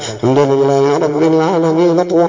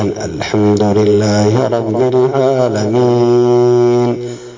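First: The phrase is recited quickly and hurriedly. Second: The phrase is recited slowly and in measured fashion. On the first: The speaker calls it wrong. "لا هذا ... بسرعة يقرأ" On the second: The speaker calls it right. "قال ترتيلا"

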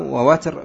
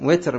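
First: The first vowel is a, as in watr. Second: The first vowel is i, as in witr. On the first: "بفتح الواو" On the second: "بكسر الواو"

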